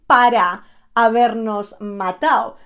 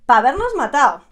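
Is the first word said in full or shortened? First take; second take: full; shortened. First: The first word is said as full 'para'. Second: The first word is shortened to 'pa'. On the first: The speaker calls it wrong. "you don't say para habernos matado" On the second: The speaker calls it right. "You shorten the para to pa"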